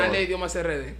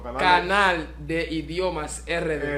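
First: The name is said at a normal pace. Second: The name is said slowly and carefully.

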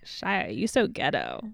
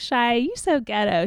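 First: The tone is harsh and scornful. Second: The tone is light and teasing. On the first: It is a serious insult. "She said it like" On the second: It is a harmless joke. "she didn't say like"

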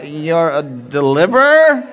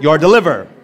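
First: It sounds hesitant and questioning. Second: It sounds firm and declarative. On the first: The speaker is unsure it is true. The speaker calls it wrong. "I don't want you to say it like this" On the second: The speaker proclaims it as true. The speaker calls it right. "You're making a prophetic proclamation over that person"

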